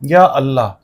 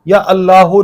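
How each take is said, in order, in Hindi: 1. इस शब्द का अंत बिना किसी स्वर के 'h' पर होता है। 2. इस शब्द के अंत में एक अतिरिक्त 'u' स्वर जुड़ता है। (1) "सख्त करना है, ऊपर पेश नहीं लगाना" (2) "या अल्लाहो नहीं पढ़ना आपने"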